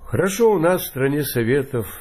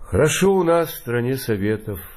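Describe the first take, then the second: First: It is said in a cheerful, upbeat way. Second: It is said in a sad, mournful way.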